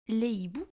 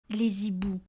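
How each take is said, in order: First: No z sound links les to hiboux. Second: A z sound links les to hiboux. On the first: The speaker calls it right. "mais on dit" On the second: The speaker calls it wrong. "on dit pas"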